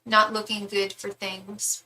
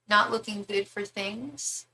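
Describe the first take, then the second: First: Said in the usual way. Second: Slow, softer echo with a rise on THINGS; softly querying, lifting THINGS at the end; puzzled question. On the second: Real, not acted. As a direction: repeat it as a question, rising at THINGS. Queries what was just read.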